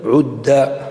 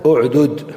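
First: The two final consonants merge into one doubled consonant. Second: The two final consonants are pronounced separately. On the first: "ولك أن تدغم" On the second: "لك أن تفك"

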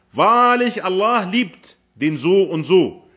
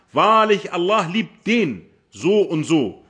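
The two takes are said the same way.

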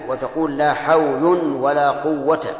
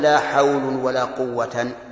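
First: The last word ends in a short 'a'. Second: The last word ends in 'an' with nunation. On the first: The second 'la' governs its noun while the first does not. The speaker calls it right. "فتكون ألغيت لا في الأولى وأعملتها في الثاني" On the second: The second noun is made accusative and joined to a nominative noun. The speaker calls it wrong. "ولا تقل"

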